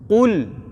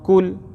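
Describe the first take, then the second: First: It starts with a heavy, thick back sound. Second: It starts with a light, thin k sound. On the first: The speaker calls it right. "huruf qaf kena jaga... tebalkan sikit bunyi dia" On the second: The speaker calls it wrong. "Jangan baca kul... kul tu jadi huruf kaf"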